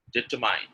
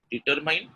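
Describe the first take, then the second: First: DETERMINE with a light, r-less middle syllable; correct pronunciation. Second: DETERMINE with the last syllable like "mine"; wrong pronunciation. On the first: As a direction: say DETERMINE as "dih-TUH-min", falling. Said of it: "second one is correct". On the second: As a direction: say DETERMINE ending in a long "mine", rising. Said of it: "Determine is wrong". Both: Shown as a demonstration.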